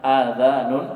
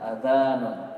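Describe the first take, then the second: First: The first vowel is held long. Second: The first vowel is kept short. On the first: It means ears, the plural of ear. "Kalau antum baca panjang" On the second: It means the call to prayer. "hamzahnya pen pendek"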